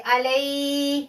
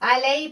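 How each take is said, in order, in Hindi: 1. 'ay' की आवाज़ खींची हुई और ज़ोर से है। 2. 'ay' की आवाज़ छोटी और नरम है। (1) "ऐसे नहीं पढ़ेंगे" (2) "सिर्फ या को जाहिर करेंगे, अलई पढ़ेंगे"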